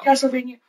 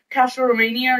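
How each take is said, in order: First: "Castlevania" said cleanly, every syllable "Cas-tle-va-nia"; corrected pronunciation. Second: "Castlevania" slurred, the middle mumbled like "Castle-o-mania"; unsure first try. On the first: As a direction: repeat "Castlevania" carefully after the correction. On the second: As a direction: fumble "Castlevania", not sure of the name. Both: Real, not acted.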